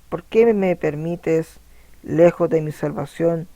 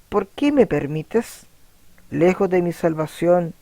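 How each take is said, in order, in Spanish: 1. No hay una pausa después de 'permites'. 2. Hay una pausa después de 'permites'. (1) "Entonces aquí le quitamos la coma" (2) "Pongámosle una coma. Fíjense acá cómo sonaría"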